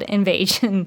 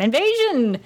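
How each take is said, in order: First: The word is said flatly, without excitement. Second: The word is said with loud, excited energy. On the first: The speaker calls it wrong. "I didn't give it the correct inflection there" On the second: The speaker calls it right. "more enthusiasm"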